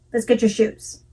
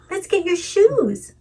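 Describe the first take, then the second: First: Said in the usual way. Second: High, slow sing-song; melodic. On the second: Shown as a demonstration. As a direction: lilt it up playfully for a toddler. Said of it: "there's a very big difference between saying".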